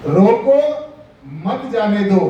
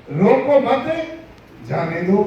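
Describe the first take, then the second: First: रोको alone, long pause, then मत जाने दो together; pause after रोको. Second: रोको मत together, pause, then जाने दो; pause after मत. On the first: Preacher showing what a comma changes, pause after रोको. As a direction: break right after रोको, keep मत with जाने दो. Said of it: "उसके बाद में कोमा लगा दिया". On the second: Preacher showing the opposite meaning, pause after मत. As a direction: break after मत, letting जाने दो stand alone. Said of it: "और अगर उसी कोमे को हम". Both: Shown as a demonstration.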